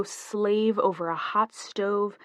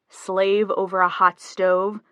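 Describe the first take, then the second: First: Slow, drawn-out grand offer; slightly overplayed, slow bargaining pitch. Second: Slow, loud, disbelieving question; drawn-out mock disbelief; incredulous echo. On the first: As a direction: lay it on a bit, taking your time. Wife grandly offers a deal. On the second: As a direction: throw it back slowly, rising at the end. Husband echoes her offer in disbelief. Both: A narrator's reading.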